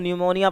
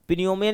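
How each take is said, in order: First: The word begins with an N sound. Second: The word begins with a P sound. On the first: The speaker calls it right. "इसको न्यूमोनिया पढ़ रहे हैं, तो पी यहाँ पर silent है" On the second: The speaker calls it wrong. "पिन्यूमिया नहीं पढ़ रहे इसको हम"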